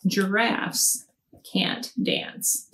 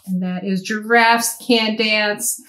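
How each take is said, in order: First: Softly whispered book title; hushed whisper of the title. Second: Said in the usual way. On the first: Shown as a demonstration. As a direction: breathe the title out like a secret. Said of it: "This one is Giraffes".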